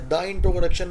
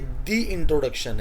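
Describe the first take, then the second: First: 'The' is said with a short uh vowel. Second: 'The' is said with a long ee vowel. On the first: The speaker calls it wrong. "ये द introduction नहीं है" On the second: The speaker calls it right. "ये दी introduction है"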